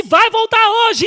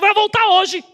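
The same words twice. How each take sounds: First: "Vai voltar hoje" slow and higher, leaning on "voltar"; slow emphatic promise. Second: Said in the usual way. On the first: Retold or imitated. Repeating to the nurse that he will come back today, slow and emphatic. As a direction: stretch "voltar" like a sure prophecy.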